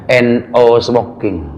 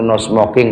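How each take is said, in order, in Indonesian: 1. Kata pertama dieja huruf demi huruf. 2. Kata pertama diucapkan sebagai kata no. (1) "N O smoking katanya gitu" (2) "kalau dibaca orang biasa"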